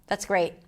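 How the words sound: The voice sounds flat and uninterested.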